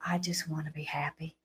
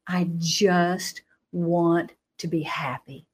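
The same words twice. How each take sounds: First: Hushed, breathy, with no voice at all; whisper. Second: Voiced, drawn out and earnest; slow, pleading. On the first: Retold or imitated. A frightened teen whispering her answer to the booming voice. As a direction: barely breathe the words, timid. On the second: A teen slowly repeating her plea to the booming voice. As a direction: ask for it slowly, almost begging.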